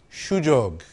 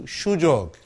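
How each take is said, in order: First: Sujog repeated low, as shoo-jog; Bengali sujog. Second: Sujog said slowly as shoo-jog, falling; Bengali sujog. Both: Shown as a demonstration. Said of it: "the word that we have for opportunity is".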